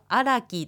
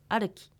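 First: A full 'ra' syllable is pronounced in the middle. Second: A light, reduced r sound is pronounced in the middle. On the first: The speaker calls it wrong. "これはアラキと発音するのではなく" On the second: The speaker calls it right. "ラとルの中間のような音でアルキ"

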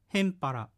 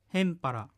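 The two takes are said the same way.

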